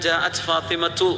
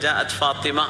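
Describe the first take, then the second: First: The name ends with a spoken t and vowel. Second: The name ends without any t sound. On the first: It follows the full grammatical ending. "നമ്മൾ നഹ്വു സർഫൊക്കെ പഠിച്ചു വരികയാണെങ്കിൽ" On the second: It is the ordinary way of reading aloud. "വായിക്കുമ്പോൾ ജാഅത് ഫാത്തിമ എന്ന് പറഞ്ഞാൽ മതി"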